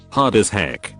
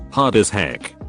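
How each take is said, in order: Both takes have the same delivery.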